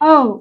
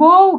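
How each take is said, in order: First: The word ends on a plain oh vowel. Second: The word ends with a v-like sound. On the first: The speaker calls it right. "ఓహ్! అనాలి" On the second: The speaker calls it wrong. "ఓవ్ కాదు"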